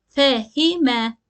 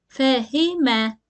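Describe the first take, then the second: The two takes are said the same way.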